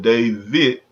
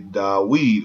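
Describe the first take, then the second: First: The middle consonant is a V sound. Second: The middle consonant is a W sound. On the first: The speaker calls it wrong. "there is no V in Hebrew" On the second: The speaker calls it right. "you would say Dawid"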